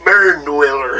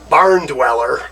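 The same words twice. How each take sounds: First: It is said with a southern twang. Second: It is said in a plain, neutral accent. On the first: It sounds cooler, like the band name. The speaker calls it right. "put a little southern s- twang to it" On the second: It sounds less cool. The speaker calls it wrong. "it doesn't sound as cool"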